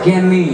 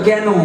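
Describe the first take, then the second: First: Said with an open vowel and a final 'i'. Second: Said with a closer vowel, like 'ken'. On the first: This is how people in the speaker's home region say it. "আমাদের বীরভূমের দিকে একটা কথা আছে ক্যানি" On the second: This is how people from Kolkata say it. "Kolkata থেকে গেলে বলে কেন"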